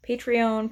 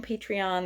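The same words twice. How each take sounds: First: Patreon ending in a long OWN; first pronunciation. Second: Patreon ending in an open AHN; alternative pronunciation. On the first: Vlogger showing viewers one way to say it, Patreon ending in "own". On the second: Vlogger showing viewers another way to say it, Patreon ending in "ahn". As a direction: say Patreon with the last syllable like "on". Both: Shown as a demonstration. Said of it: "there's different ways to pronounce it".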